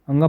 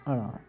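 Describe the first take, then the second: First: The letter is read with an 'ng' sound. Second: The letter is read with a flapped 'r' sound. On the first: This is how it is read now. "अंगा पढ़ते हैं ना इसे" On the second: This is how it was read in childhood. "हम तो भैया छोटे थे जब इसे अड़ा पढ़ते थे"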